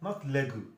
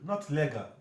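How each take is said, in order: The two takes are said the same way.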